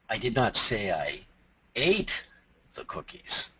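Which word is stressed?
ate. The word ate is stressed. Something else was done with the cookies. "I might have thrown them at people, but I didn't eat them"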